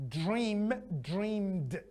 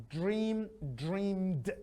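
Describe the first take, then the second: The two takes are said the same way.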